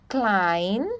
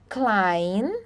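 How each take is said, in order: Both takes have the same delivery.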